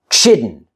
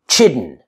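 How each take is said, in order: No difference in how they are said.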